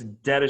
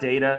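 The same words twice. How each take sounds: First: It starts like the first part of detonation. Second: It sounds like the computer word data. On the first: This is the name of the explosive sheet. The speaker calls it right. "It's data sheet for detonation" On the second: This is the information-technology word. The speaker calls it wrong. "It's not data. It's not an I T uh, thing"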